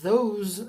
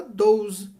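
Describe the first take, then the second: First: Those with voiced th, tongue between teeth; careful th in those; correct those. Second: Those said with a hard d, dose; wrong those, like dose. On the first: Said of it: "se em vez de falar those". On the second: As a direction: those turned into doze. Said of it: "é dose". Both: Shown as a demonstration.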